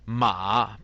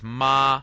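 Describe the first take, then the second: First: The syllable is said with the third tone. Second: The syllable is said with a non-third tone. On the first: "Ma by itself is third tone and it means horse" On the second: "But here the tone is totally different"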